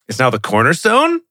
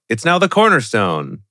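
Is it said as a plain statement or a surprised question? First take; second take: surprised question; plain statement. First: It is said as an astonished exclaiming question. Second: It is read as a plain, flat statement.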